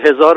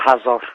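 First: Pronounced the common everyday way. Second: Pronounced the distinctive learned-sounding way. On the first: This is how ordinary people say it. The speaker calls it right. "همه فرض کنید که هزار میگن" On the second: The speaker wants to seem distinguished. The speaker calls it wrong. "اون میگه"

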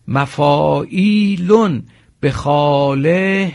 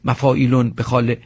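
First: The sounds of the words are drawn out. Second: The sounds of the words are clipped short. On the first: The speaker calls it right. "باید به همین شکل این کلمات رو بکشیم" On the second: The speaker calls it wrong. "نگوییم"

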